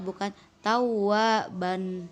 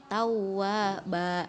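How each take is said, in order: First: The word ends with an n sound. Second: The word ends on a lengthened a vowel. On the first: The speaker calls it wrong. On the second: The speaker calls it right. "dibaca dua harokat"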